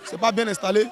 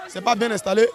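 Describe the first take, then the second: No difference in how they are said.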